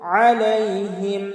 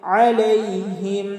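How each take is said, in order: Both takes have the same delivery.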